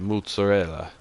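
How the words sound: It is said with an Italian accent. "hear anyone Italian say mozzarella"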